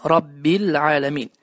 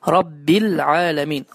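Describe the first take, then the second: No difference in how they are said.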